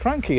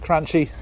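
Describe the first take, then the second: First: The middle consonant is a k sound. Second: The middle consonant is a ch sound. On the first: The speaker calls it right. "the official pronunciation" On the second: The speaker calls it wrong. "I pronounce them Cranchy"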